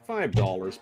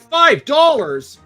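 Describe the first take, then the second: First: It is said in a plain, normal tone. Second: It is said loudly and emphatically.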